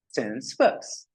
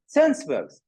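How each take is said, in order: First: Breathy whisper of the words. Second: Said in the usual way. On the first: Shown as a demonstration. Teacher whispers a term to the class. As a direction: whisper it first, unvoiced.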